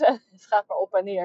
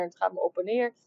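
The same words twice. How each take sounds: First: Laughing through the words. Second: Said in the usual way. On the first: Real, not acted. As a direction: chuckle while saying it. Laughs about the price swings.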